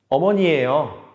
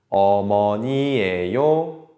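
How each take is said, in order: First: The phrase is said quickly. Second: The phrase is said slowly. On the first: "Muy rápido, ¿verdad?" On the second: "al principio, un poco despacio"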